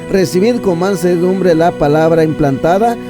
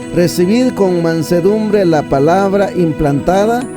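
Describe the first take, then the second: No difference in how they are said.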